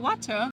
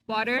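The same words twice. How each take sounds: First: The t is a crisp, clear sound. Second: The t is a soft flap sound.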